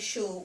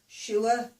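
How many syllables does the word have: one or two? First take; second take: one; two. First: The word is said in one syllable. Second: The word is drawn out into two syllables. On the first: This is not how people here say it. "we don't just say sure" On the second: This is the local accent. "I think we put two syllables in that"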